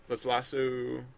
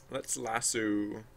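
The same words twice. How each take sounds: First: Said in the usual way. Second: Let's lasso stretched slow, every sound drawn out. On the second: Real, not acted. Streamer narrating her own tool choice, slowly drawn out. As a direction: savour the word lasso slowly. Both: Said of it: "repeats tool name while working".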